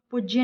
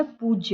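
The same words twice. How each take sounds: First: "पूज्य" with short, hit "puj"; wrong short u. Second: "पूज्य" with long "poo"; correct long u. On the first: Teacher rejects the mistake, short-u "पूज्य". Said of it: "नहीं होता है". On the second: Teacher gives the correction, long-u "पूज्य". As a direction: stretch पू in "पूज्य". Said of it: "होता है". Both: Shown as a demonstration.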